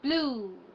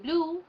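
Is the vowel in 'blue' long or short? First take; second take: long; short. First: The vowel is long and stretched out. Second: The vowel is short and not stretched. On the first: The speaker calls it right. "we say blue" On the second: The speaker calls it wrong. "We don't say blue"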